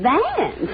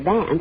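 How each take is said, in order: First: The name is said loudly with strong emphasis. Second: The name is said plainly, without emphasis.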